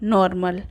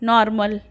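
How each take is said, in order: First: The first vowel sounds like a rounded 'o'. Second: The first vowel sounds close to an open 'a'. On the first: The speaker calls it wrong. "ना कि" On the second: The speaker calls it right. "इसको अ की ध्वनि से उच्चारित करते हैं"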